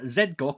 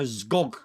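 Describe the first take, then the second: First: The Z is said as a full 'zed' syllable. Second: The Z is not said as a separate syllable. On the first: The speaker calls it wrong. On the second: The speaker calls it right.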